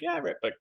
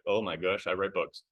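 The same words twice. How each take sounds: First: Re-enacted breezy answer, pitched way up; breezy reply. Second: Dawning alarm. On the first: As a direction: answer the pastor lightly, high-pitched. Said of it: "I'm like". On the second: Retold or imitated. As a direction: replay it sinking in, under your breath. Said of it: "What books do I not want my pastor to read?".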